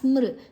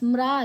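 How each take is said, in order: First: The syllable ends with a vocalic 'ri' sound. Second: The syllable ends with a plain 'a' vowel. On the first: The speaker calls it right. "ಸ್ಮೃ ಮೂರು ಅಕ್ಷರ" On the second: The speaker calls it wrong. "ಸ್ಮ್ರ ಅಲ್ಲ"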